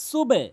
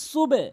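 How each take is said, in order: Both takes have the same delivery.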